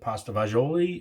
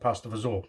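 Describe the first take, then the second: First: The last word is long and ends in a vowel. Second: The last word is clipped and ends in a consonant. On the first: Other people say it this way. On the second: This is how the speaker was raised to say it. "I pronounce it pasta fazool"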